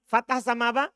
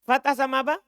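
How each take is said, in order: Both takes have the same delivery.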